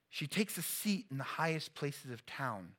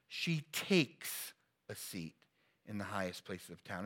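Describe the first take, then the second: First: It is read plainly, without special emphasis. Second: It is read with strong, deliberate emphasis.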